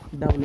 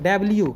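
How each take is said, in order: First: It ends with a plain lu sound. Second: It ends with a lyu sound. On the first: The speaker calls it wrong. "ये डब्लू इसको नहीं पढ़ना है" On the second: The speaker calls it right. "इसको क्या पढ़ना है"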